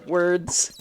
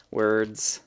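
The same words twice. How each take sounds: First: Mock frustration. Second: Said in the usual way. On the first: Real, not acted. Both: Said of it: "I'm a Let's Play commentator".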